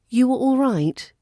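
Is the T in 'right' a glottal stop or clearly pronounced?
pronounced. The T is clearly pronounced, RP-style.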